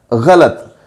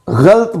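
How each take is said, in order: First: गलत as gha-lat, two syllables; correct pronunciation. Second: गलत as ghalt, one syllable; common mispronunciation. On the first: Teacher correcting the popular error, गलत as gha-lat. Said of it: "दुरुस्त तलफ़ुज़ जो है वो है". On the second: Teacher showing how people say it, गलत as ghalt. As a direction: run ल straight into त in गलत, ghalt. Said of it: "इसका तलफ़ुज़ गलत करते हैं". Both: Shown as a demonstration.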